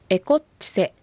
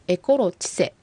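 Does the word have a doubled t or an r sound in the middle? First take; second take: doubled t; r sound. First: The middle has a doubled t sound. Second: The middle has an r sound. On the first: The speaker calls it right. "エコッチセと発音した方がアイヌ語らしい発音になります" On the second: The speaker calls it wrong. "正確に発音するとエコロチセという風になります"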